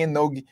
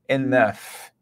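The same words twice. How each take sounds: First: The word ends with a hard g sound. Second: The word ends with an f sound. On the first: The speaker calls it wrong. "Não fale em enough" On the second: The speaker calls it right. "Esse G e esse F do final tem realmente a pronúncia de F"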